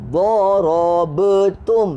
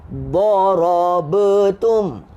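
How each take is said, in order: Both takes have the same delivery.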